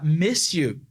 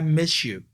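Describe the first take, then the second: First: A plain s sound comes before 'you'. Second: An sh sound comes before 'you'. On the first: "ao invés de falar miss you" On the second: "vou mudar esse s pra sh"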